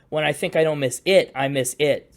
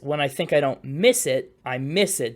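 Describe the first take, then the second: First: The stress falls on the word it. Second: The stress falls on the word miss.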